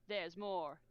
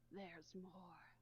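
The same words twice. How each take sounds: First: It is said in a put-on game-character voice. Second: It is said wearily with a long sigh. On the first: The speaker calls it wrong. "That is a T F two thing" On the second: The speaker calls it right. "he said with a long sigh"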